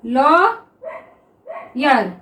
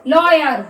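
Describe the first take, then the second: First: lawyer drawn out very slowly, each sound held; slowly stretched word. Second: Said in the usual way. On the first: Shown as a demonstration. (Lawyer को बहुत धीरे खींचकर बोलें) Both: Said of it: "देखिए".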